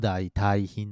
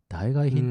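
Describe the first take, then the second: First: The word is read daitai-hin. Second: The word is read daigae-hin. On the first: This is the traditional reading. "本当はね、あの古くからの、うん、使われ方で言うと大体品なんだけど" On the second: This is the reading commonly heard nowadays. "代替品って言うもんね、うん、普通に耳にしちゃうもんね"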